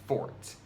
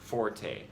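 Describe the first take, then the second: First: The word is said as one syllable. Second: The word is said as two syllables. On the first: The speaker calls it right. "is actually pronounced fort" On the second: The speaker calls it wrong. "not the commonly used forte"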